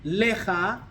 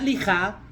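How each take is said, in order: First: The first vowel sounds like 'eh'. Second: The first vowel sounds like 'ee'. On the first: The speaker calls it right. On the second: The speaker calls it wrong.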